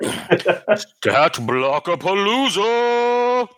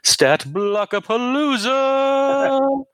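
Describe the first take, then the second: First: It is said in a deep, dropped voice. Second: It is said in his normal voice.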